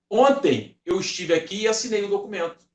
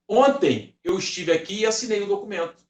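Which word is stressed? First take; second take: ontem; ontem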